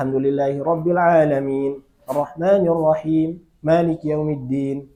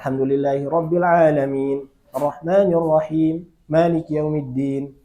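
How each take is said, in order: First: It has a brief pause partway through. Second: The same.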